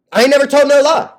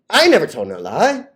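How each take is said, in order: First: Emphatic boast. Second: Said in the usual way. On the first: Acted. Repeats phrase, first louder.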